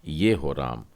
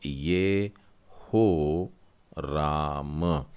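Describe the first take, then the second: First: Said in the usual way. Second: Very slow, drawn-out ye-ho ram; slow syllable-by-syllable demo. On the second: Shown as a demonstration. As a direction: stretch out ये हो राम syllable by syllable. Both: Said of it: "आखिरी शब्द जो है नौवां वाला".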